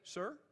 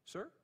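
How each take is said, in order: Both takes have the same delivery.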